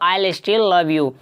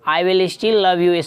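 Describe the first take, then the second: First: I will is shortened to one syllable, I'll. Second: I will is said as two full words.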